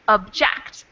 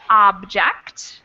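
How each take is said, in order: First: The stress is on the second syllable. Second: The stress is on the first syllable. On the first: It means to disagree with something. "the second syllable in the second word is the emphasized one" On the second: It names a thing, like a valuable item. "in the first word, the first syllable is emphasized"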